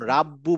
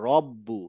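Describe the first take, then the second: First: The first vowel is an open 'a' sound. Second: The first vowel is a rounded 'o' sound. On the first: The speaker calls it wrong. "যেমন রাব্বু বলবো না" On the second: The speaker calls it right.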